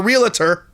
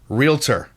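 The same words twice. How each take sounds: First: An extra vowel sound comes between L and T. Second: No extra vowel sound comes between L and T. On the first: The speaker calls it wrong. "It's not realtor because it's not, there's not an A in between the L and the T" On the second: The speaker calls it right. "It's R E A L T O R"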